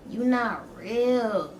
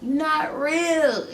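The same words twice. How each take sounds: First: Very slow, softer you not real; slow and spaced. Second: Very slow, higher you not real; spaced and a bit higher, dazed. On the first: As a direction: drag out each word, dazed. High, staring at stepmom. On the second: Repeating to stepmom. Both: Retold or imitated.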